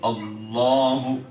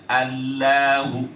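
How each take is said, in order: First: The L sound is heavy and full. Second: The L sound is light and thin. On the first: The speaker calls it right. "Tapi dia baca tabkhim Allahu gitu" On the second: The speaker calls it wrong. "tidak boleh dibaca Allahu, nggak boleh"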